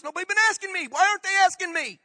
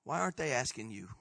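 First: High, loud protest; loud, high-pitched indignant demand; indignant outcry. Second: Low, soft pointed question; hushed, lowered, searching question; quiet challenge. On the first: Acted. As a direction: cry out as if shut out of everything. Indignant climax of complaint. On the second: Real, not acted. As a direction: turn the question softly on the listener. Turns question quietly on congregation.

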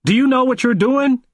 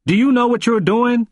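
First: Higher, insistent repeat. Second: Put-on old man pressing hard, voice raised high; forceful question. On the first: A narrator's reading. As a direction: push it harder the second time. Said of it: "wagged his finger at me and asked again". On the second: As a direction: demand it of him, much higher and louder. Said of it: "and said forcefully".

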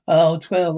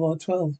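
First: Oh, twelve called out louder; loud shocked "Oh, twelve"; loud exclamation. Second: Said in the usual way. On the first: Acted. Reacting to the price.

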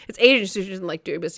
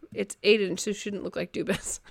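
First: Said in the usual way. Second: Reads "look like Dubas" quietly, then laughs at the slip; misread chat line. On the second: Real, not acted. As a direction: chat bericht verkeerd voorgelezen, zachtjes.

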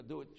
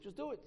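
First: Said in the usual way. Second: High, clipped order like a king; mock curt command. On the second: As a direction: snap it out as a bossy king. King's bare command, quoted.

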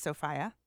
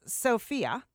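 First: Sophia said so-FY-uh; long I in the middle of Sophia. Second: Sophia said so-FEE-uh; long EE in the middle of Sophia. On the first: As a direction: say the middle of Sophia to rhyme with "eye". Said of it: "Maybe it's Sophia". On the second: Offers two ways to say the name. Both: Shown as a demonstration.

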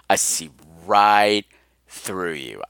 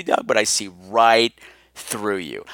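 First: Slow low murmur. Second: Low teasing drawl. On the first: Host teasing Doug again, slower and fainter in a low murmur. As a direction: stretch it out and let it die away. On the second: Host teasing Doug about his fake call, in a low teasing murmur. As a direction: drop it low and tease him. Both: Pretend.

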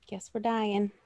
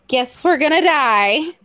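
First: Resigned. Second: Slow, louder, higher mock doom; hammed-up resignation. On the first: Acted. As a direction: say it small, as if giving up. Imagined resigned reaction, then repeated bigger. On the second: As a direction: draw it out with playful fatalism. Same resigned line, hammed up.

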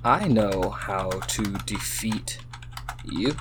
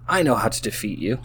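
First: Slow, soft, word by word; typing aloud. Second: Said in the usual way. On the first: Real, not acted. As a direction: murmur it slowly as you type. Saying words while typing them.

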